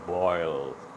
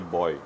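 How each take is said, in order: First: The word ends with a clear L sound. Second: The word ends without any L sound. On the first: "how to pronounce this word boil" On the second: "Appa always say boy"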